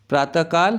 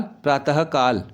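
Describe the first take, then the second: First: प्रातःकाल as "praat-a-kaal", no h; visarga left out. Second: प्रातःकाल slowly as "praa-ta-ha-kaal"; visarga sounded. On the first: Teacher reading the error, प्रातःकाल without h. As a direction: run प्रातःकाल through, ending raised. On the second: Teacher showing correction, प्रातःकाल slow with sounded h. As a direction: breathe a clear h into प्रातःकाल. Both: Shown as a demonstration. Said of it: "विसर्ग संबंधी अशुद्धियाँ".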